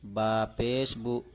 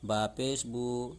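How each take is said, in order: First: The final vowel is kept short. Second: The final vowel is drawn out long. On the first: The speaker calls it right. "हमने बिल्कुल भी नहीं खींचा" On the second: The speaker calls it wrong. "ये तो खींच दिया हमने"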